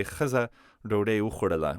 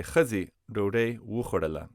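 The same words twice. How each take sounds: First: Khaza with a final a, the uninflected wrong form; wrong form shown. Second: Khazi with a final i, the inflected correct form; correct form shown. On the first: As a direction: say Khaza ending in an open a sound, as the example of what not to say. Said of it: "We can't say". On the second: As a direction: say Khazi ending in a clear ee sound, as the right answer. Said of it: "We have to say". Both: Shown as a demonstration.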